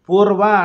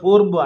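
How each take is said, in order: First: The word ends with an 'a' vowel. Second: The word ends with a 'u' vowel. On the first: This is the local southern pronunciation. "పూర్వ అంటే తూర్పుని పూర్వ అంటాం" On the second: This is the northern pronunciation. "వాళ్ళు పూర్వు అంటారు"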